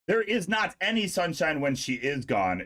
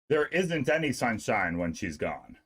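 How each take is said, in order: First: The verbs are said in full forms. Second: The verbs are said as contractions.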